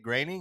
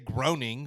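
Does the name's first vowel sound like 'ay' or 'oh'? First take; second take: ay; oh. First: The first vowel sounds like 'ay'. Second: The first vowel sounds like 'oh'. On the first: This is how someone close to the show says it. "heard somebody who was more closely related to anything Simpsons than me on T V say graining" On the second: This is how it was said from reading the name. "I think I used to say groaning when I used to read it"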